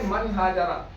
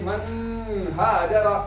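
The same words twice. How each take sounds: First: The n is released quickly without nasal hold. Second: The n is nasalized and held before ha. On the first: The speaker calls it right. "यहाँ भी जल्दी पढ़ेंगे" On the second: The speaker calls it wrong. "ऐसे नहीं पढ़ेंगे"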